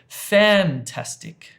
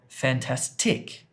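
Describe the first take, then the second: First: The stress is on the first syllable. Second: The stress is on the third syllable. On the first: "this one" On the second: "or the third one"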